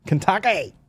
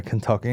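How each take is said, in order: First: Kentucky in a high mock-Australian voice; Aussie accent. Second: Said in the usual way. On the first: Comic showing workmates' funny word, mock Aussie accent. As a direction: put on a high-pitched Aussie twang. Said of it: "in, a, in an Aussie accent".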